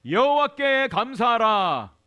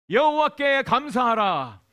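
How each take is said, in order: Both takes have the same delivery.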